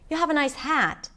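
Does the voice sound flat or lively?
lively. The voice is soft with varied pitch. The remark is taken as a compliment. "My voice was a little softer and I used pitch more"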